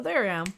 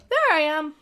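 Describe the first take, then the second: First: Said in the usual way. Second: Hushed unvoiced whisper. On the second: Real, not acted. Whispering to himself on finding his own stream. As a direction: breathe the words with no voice.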